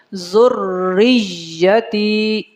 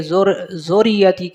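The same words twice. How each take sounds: First: ذریتی stretched very slowly; drawn out. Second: زوریتی said hastily and clipped; rushed. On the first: Teacher stretching ذریتی slowly as it should be. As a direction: pull ذریتی long and slow. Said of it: "اس کو کھینچ کے پڑھنا ہے". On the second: Teacher showing how زوریتی gets rushed. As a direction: rush through زوریتی. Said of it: "ایسے جلدی سے پڑھا جاتا ہے". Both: Shown as a demonstration.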